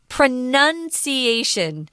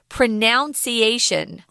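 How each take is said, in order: First: The second syllable has a short 'uh' vowel, like 'nun'. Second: The second syllable has the 'ow' vowel, like 'noun'. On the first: The speaker calls it right. "but the noun is pronunciation" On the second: The speaker calls it wrong. "I hear a lot of people say this word pronunciation. That's wrong"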